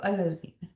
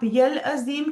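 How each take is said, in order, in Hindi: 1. यह नए सिरे से शुरू होता है, साफ़ 'al' की आवाज़ से। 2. यह जुड़ा हुआ है, 'ya' की आवाज़ से शुरू होता है। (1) "अगर अलग पढ़ रहे हैं तो अल अजीम" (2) "अगर आप मिला के पढ़ रहे हैं ना, तो आप यल अजीम कहेंगे"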